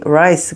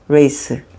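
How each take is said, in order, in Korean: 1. 모음은 'eye'처럼 들려요. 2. 모음은 'ay'처럼 들려요. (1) "rice다 R-I-C-E rice" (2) "모음을 엉터리로 발음해서"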